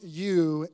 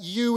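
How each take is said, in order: First: Said in the usual way. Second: "you" hit harder and higher; emphatic you. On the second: Shown as a demonstration. Preacher demonstrating the Greek emphasis on "you". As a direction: lean hard into "you" to show its force. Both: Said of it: "em-, is emphatic".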